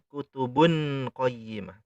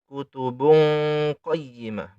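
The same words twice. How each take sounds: First: The n is pronounced as a clear n. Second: The n becomes a nasal ng hum. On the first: The speaker calls it wrong. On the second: The speaker calls it right. "dibaca eng"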